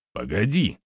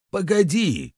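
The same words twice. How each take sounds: First: Understated exclamation. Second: High-pitched cry to wait; urgent exclamation. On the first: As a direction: cut in, without shouting. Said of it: "воскликнул Гирис". (сдержанный возглас) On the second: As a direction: cut in urgently, pitch leaping up. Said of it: "воскликнул травник". (тревожный высокий возглас) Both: A narrator's reading.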